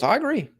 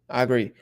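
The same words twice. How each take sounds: First: Emphatic agreement. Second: Said in the usual way. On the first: Real, not acted.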